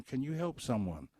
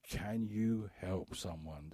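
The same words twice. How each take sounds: First: Said in the usual way. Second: Slow and deliberate. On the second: Real, not acted. Repeated slowly and lower.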